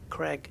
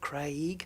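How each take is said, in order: First: The vowel sounds like a short e. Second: The vowel glides from an a to an i. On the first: This is the American pronunciation. "almost like it's C R E G G" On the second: This is the British pronunciation. "the A and the I getting pronounced in that order"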